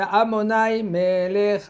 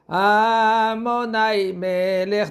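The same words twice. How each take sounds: First: The first syllable of Adonai is unstressed. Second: The first syllable of Adonai is stressed. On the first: The speaker calls it right. "C'est Amonai Melech" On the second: The speaker calls it wrong. "c'est faux. C'est pas Amonai, c'est pas A"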